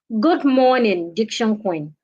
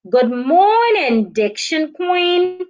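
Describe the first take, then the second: First: The pitch falls at the end. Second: The pitch rises at the end. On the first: The speaker calls it wrong. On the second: The speaker calls it right. "you can also use a rising intonation"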